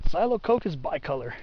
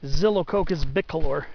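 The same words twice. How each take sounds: First: It uses an anglicized Latin pronunciation. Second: It uses a classical Latin pronunciation.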